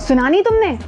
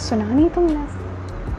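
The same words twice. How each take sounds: First: The voice sounds angry and harsh. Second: The voice sounds soft and romantic. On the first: "गुस्से में बोले" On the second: "romantic होके बोले"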